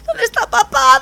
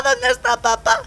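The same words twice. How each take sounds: First: Put-on high child voice, whiny; high baby stork whine. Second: Said in the usual way. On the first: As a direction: squeak it like a little chick asking for dad. Baby stork asks for dad.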